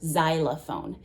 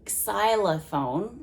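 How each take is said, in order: First: The word begins with a z sound. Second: The word begins with a ks sound. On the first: "most of the time people make it sound almost like a Z sound" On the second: "I'm kind of making it sound more like the X sound"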